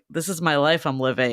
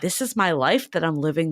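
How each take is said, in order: First: It is said in a flat, glum tone. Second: It is said in an excited, lively tone.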